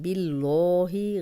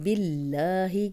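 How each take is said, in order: First: The L sound is heavy and thick. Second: The L sound is light and thin. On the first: The speaker calls it wrong. "गलत हो जाएगा" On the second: The speaker calls it right. "बारीक ही पढ़ेंगे"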